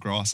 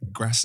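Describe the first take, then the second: First: It is said in a London accent. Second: It is said in a Northern English accent. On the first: This is how people from London say it. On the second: This is how people from Birmingham and Manchester say it.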